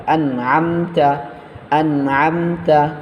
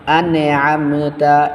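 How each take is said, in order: First: আনআমতা with the nun held straight, no bounce; correct pronunciation. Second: আনআমতা with the nun bounced, a wrong qalqala; wrong pronunciation. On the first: Teacher showing the right way, a smooth held nun. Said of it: "স্ট্রেটলি ধরতে হবে এই জায়গায় আন". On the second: Teacher demonstrating the common mistake, a bounced nun. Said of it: "এই ভুলটা করা হয়". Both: Shown as a demonstration.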